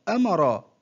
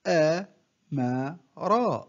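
First: Said in the usual way. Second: One short syllable at a time, with pauses; broken into syllables. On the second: Shown as a demonstration. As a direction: separate each syllable for a learner to copy. (تقطيع الكلمة مقطعًا مقطعًا بوقفات) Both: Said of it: "تهجأ".

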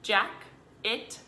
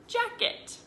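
First: "Jack, it" as two separate chunks; syllable by syllable. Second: Said in the usual way. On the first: Shown as a demonstration. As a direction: chop "Jack, it" with a pause. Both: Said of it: "chop and then we're gonna blend".

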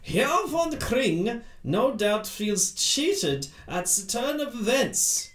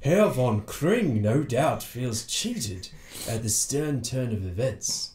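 First: Put-on slow, higher German-accented policeman; heavy German accent, drawn out. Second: Sherlock Holmes voice. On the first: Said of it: "sorry, that was Sherlock Holmes". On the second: Acted. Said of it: "that was Sherlock Holmes".

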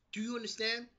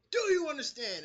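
First: Said in the usual way. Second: Louder and higher, pressing the question; mock Marie repeating herself louder; insistent repeat. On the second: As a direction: demand it again with force. Marie demanding, repeats harder.

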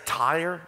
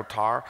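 First: "tire" with a full two-part vowel, general American; standard tire. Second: "tar" for tire, the vowel flattened to a single "ah"; Southern "tar". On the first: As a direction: say "tire" the Northern way, clearly. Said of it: "I can say tire now". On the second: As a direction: drop the glide, Southern style, "tar". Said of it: "I go back to my Southern roots". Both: Shown as a demonstration.

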